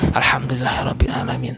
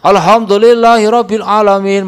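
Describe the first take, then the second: First: The phrase is recited softly and calmly. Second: The phrase is recited loudly, like a choir. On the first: The follower recites without overpowering the prayer leader. The speaker calls it right. "Yang penting" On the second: The follower recites louder than the prayer leader. The speaker calls it wrong. "lebih keras karo imam malah pada be karo imam"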